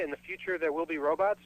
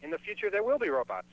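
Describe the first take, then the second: First: "Robots" lifted in a rising question; rising tune ending on "Robots"; questioning title. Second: "will" punched, pitched up, then falling; firm falling statement, weight on "will"; stress on WILL. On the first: Names a play title as question. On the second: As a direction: insist on "will" as a certainty. Asserts the title as true. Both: Acted.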